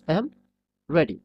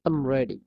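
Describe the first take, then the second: First: I and am are two full separate words. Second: I and am merge into one short syllable. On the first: The speaker calls it wrong. "আই অ্যাম আমরা সাধারণত বলতে কি" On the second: The speaker calls it right. "But এর উচ্চারণ হবে আম।"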